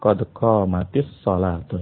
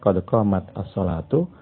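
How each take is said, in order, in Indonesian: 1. Huruf t pada qamat tersambung ke salatu dengan i. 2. Huruf t pada qamat berakhir tanpa vokal. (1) "Kalau mau disambung" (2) "Kalau mau dipisah"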